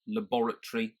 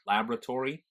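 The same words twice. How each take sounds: First: "Laboratory" as "la-BOR-a-tree"; British pronunciation. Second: "laboratory" as "LAB-ra-tor-ee"; American pronunciation. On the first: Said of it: "in a British pronunciation". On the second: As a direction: stress LAB, full "-tory" in "laboratory". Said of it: "little quirks". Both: Shown as a demonstration.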